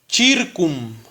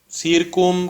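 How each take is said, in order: First: The word begins with a ch sound. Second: The word begins with an s sound. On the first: This is the Latin reading. "En latín aquí dice circum" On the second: This is the Spanish form. "en español o en la, se quedó como circum"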